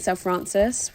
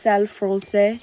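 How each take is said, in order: First: The second word ends with an audible S sound. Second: The second word ends without any S sound. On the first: The speaker calls it wrong. "a lot of people have been saying Selle Francis" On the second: The speaker calls it right. "if you want to know how to pronounce it, it's Selle Francais"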